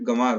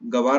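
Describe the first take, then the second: First: The first vowel is nasalized. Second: The first vowel is plain, without nasalization. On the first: The speaker calls it right. "गंवार होता है" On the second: The speaker calls it wrong. "गवार नहीं होता है"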